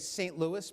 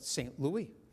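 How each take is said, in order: First: The name has a local anglicized pronunciation. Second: The name has a French pronunciation. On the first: This is how the locals say it. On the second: This is the original French form.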